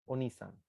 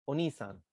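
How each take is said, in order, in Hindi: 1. एक जुड़ा हुआ शब्द है, a को छोड़ते हुए और ni को लंबा करते हुए। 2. एक जुड़ा हुआ शब्द है, a को छोड़ते हुए और ni को लंबा करते हुए।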